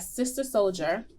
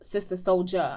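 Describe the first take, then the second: First: The name ends with a hard 'er' sound. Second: The name ends with a soft 'ah' sound. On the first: The speaker calls it wrong. "I put the hard E R on her" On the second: The speaker calls it right. "I didn't mean to put the hard E R"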